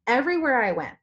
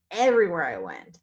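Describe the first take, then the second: First: EVERYWHERE pitched high, falling through the phrase; opening emphasis. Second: EVERYWHERE leaned on low, falling away; emphatic repeat. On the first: Seller telling viewers what she noticed on her trip, high emphasis on EVERYWHERE. First take before emphatic repeat. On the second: Seller repeating her point to viewers, low emphatic EVERYWHERE. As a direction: drive EVERYWHERE home in a lower pitch. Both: Real, not acted.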